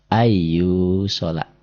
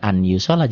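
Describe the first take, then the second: First: The n sound merges into the following y. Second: The n sound is pronounced before the y. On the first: The speaker calls it right. "jadi ai. N-nya berubah masuk ke y" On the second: The speaker calls it wrong. "jangan an yu sholat"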